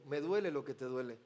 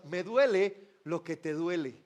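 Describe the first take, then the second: First: "duele" almost whispered, much softer; hushed. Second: "duele" drawn out, slow and low; tender. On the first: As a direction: breathe "me duele lo que te duele" softly. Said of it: "Jesús le podría decir". ("duele" susurrado, muy suave) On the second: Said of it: "está diciendo con esas lágrimas". ("duele" lento y tierno) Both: Acted.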